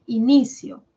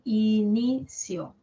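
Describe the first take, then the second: First: Said in the usual way. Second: "inicio" slowly split as i-ni-cio; syllable by syllable. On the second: Shown as a demonstration. Teacher finding the stressed syllable for students, "inicio" syllable by syllable. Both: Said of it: "La tónica es ni".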